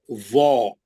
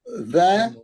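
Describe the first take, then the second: First: वो as a low, rounded "zaw"; thick. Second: ज़ as "zae", with a spread vowel; thin. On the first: Teacher resumes the contrast for students, thick and low. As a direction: round the mouth on a buzzing, heavy वो. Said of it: "मोटे हरफ मोटे ही पढ़ना है". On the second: Teacher resumes the contrast for students, thin and spread-mouthed. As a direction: keep ज़ light and unrounded. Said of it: "पतले हरफ पतले ही पढ़ना है". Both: Shown as a demonstration.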